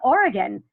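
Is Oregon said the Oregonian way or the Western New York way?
Oregonian. It is said the way Oregonians say it.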